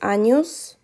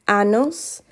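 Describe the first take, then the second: First: The middle consonant is an 'ny' sound. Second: The middle consonant is a plain 'n' sound. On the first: The speaker calls it right. "I just want to emphasize años" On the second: The speaker calls it wrong. "many of you are still saying anos and you're not pronouncing the tilde above the N"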